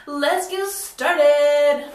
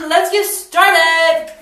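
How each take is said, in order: First: Drawn-out hype. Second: Slow, loud drawn-out announcement; belted catchphrase. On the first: Hyped intro catchphrase. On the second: Vlogger kicks off the piercing with a loud hype call. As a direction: belt it like a show host. Repeated catchphrase, much louder. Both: Pretend.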